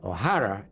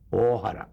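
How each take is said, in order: First: The name is pronounced the Irish way. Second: The name is pronounced the Japanese way. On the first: "O'Hara in Irish" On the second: "which is Japanese"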